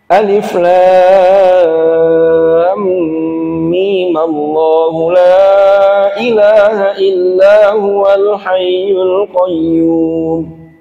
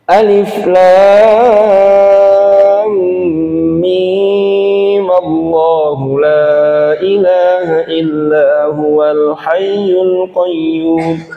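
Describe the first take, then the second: First: Mim gets a short vowel, joined straight to Allahu. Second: Mim is held long before Allahu. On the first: "Boleh diwasol ya dengan memberi harokat mim, memberi harokat dibaca dengan harokat fathah, dan mimnya ini bisa menjadi mat tabi'i" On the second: "Atau kalau mau tetap dipanjangkan juga bisa"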